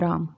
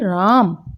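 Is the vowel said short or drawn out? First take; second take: short; drawn out. First: The name is said plainly with a normal vowel. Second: The name is called out with a stretched vowel.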